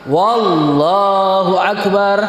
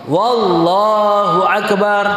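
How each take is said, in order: Both takes have the same delivery.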